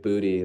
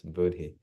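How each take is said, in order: First: It sounds like the English word 'booty'. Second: It does not sound like English 'booty'. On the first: The speaker calls it wrong. "Not like booty, like the American booty" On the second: The speaker calls it right. "It's Buddhi"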